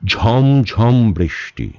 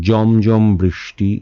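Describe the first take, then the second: First: The first consonant is aspirated, a breathy jh. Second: The first consonant is unaspirated, a plain j. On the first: The speaker calls it right. "আপনাকে বলতে হবে ঝমঝম বৃষ্টি" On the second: The speaker calls it wrong. "সেটা আ অল্প প্রাণের দিকে চলে যাচ্ছে"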